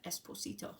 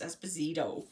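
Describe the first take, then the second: First: The middle consonant is a hissing S sound. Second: The middle consonant is a buzzing Z sound. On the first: Someone thinking the name is Spanish says it. "they also say it like that" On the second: This is how the family says its name. "like it's a Z sound"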